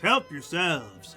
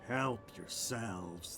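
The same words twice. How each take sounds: First: The voice sounds warm and welcoming. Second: The voice turns cold and menacing. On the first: The guests are simply invited to eat. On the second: The host will be displeased if they refuse to eat.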